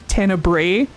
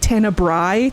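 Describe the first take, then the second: First: The last syllable sounds like bray. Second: The last syllable does not sound like bray. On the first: The speaker calls it wrong. "I just thought it was Tenebrae" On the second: The speaker calls it right. "what the pronunciation for it was. So it's like Tenebrae"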